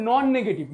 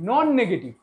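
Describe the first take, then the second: The two takes are said the same way.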